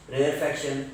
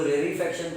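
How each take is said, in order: First: Said in the usual way. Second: रेयरफैक्शन said as "rary-faction", with an ee after rare; alternative pronunciation. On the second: Shown as a demonstration. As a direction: add an "ee" before faction in रेयरफैक्शन. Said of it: "कुछ लोग रेयरफैक्शन पढ़ते हैं उसको".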